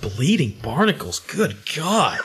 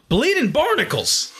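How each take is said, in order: First: Understated horror at someone else's oath; appalled reaction. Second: High, stretched comic oath; exclaimed with pitch way up, drawn out; pirate exclamation. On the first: Retold or imitated. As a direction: repeat it back in mock disbelief. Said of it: "give me this awful look like". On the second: Acted. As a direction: cry it out as a mock-startled pirate. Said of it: "lot of really good exclamations".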